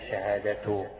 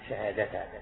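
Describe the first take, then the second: First: The word ends with a u vowel. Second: The word ends with an a vowel. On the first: The word begins a new sentence. "أو شهادته على استئناف كأنك تبدأ جملة جديدة" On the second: The word is the object of an omitted verb. "أو تنصبها على تقدير فعل محذوف"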